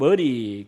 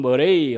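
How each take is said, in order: First: The name is said the Scottish way. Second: The name is said in the usual non-Scottish way.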